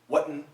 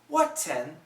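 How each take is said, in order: First: The T is replaced by a throat catch. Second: The T is fully released between the vowels. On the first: "And a glottal stop" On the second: "With a T"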